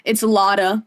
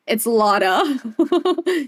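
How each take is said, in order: First: Said in the usual way. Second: Very slow "It's Lotta" stretched out through a laugh; laughing drawl. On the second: Shown as a demonstration. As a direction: drag out "Lotta" while laughing.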